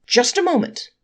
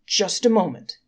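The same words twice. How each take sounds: First: Much higher, louder call; defending angel cries out to halt the court; cry out. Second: Mild louder call to interrupt; a touch of raised voice to halt them; accusing angel mildly calls out to the court. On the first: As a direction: shout to stop the verdict. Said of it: "cried the angelic counsel". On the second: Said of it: "called out the accusing angel". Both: Acted.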